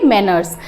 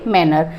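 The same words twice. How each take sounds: First: मैनर्स said with a clear final s sound; the plural, s clearly voiced at the end; manners with final s. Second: मैनर said with no s at the end; the singular, no final s; manner without s. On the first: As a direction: end मैनर्स on a crisp s, low and falling. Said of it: "मैनर्स नहीं है तो वहाँ पर हम मैनर नहीं बोलेंगे". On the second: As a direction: stop मैनर cleanly on the r, low and short. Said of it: "किस तरीके से काम करना है, तो वो यहाँ पर क्या बोलेंगे". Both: Shown as a demonstration.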